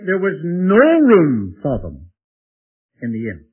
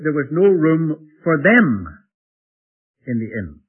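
First: The stress falls on "inn". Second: The stress falls on "them".

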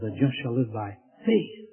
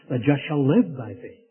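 First: The stress falls on the word faith. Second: The stress falls on the word live. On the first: The focus is on what the righteous live by. "places the emphasis on the faith" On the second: The focus is on how the righteous live. "he places the emphasis on the life"

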